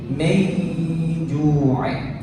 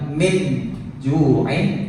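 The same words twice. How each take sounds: First: The n sound is muffled and blended forward. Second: The n sound is said clearly and fully. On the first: The speaker calls it right. "nunnya ini gak jelas nun banget, tapi min ju'in" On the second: The speaker calls it wrong. "bukan min ju'in"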